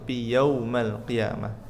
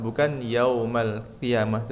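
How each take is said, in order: First: The first-word diphthong is soft and unforced. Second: The first-word diphthong is forced, not soft. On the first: The speaker calls it right. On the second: The speaker calls it wrong.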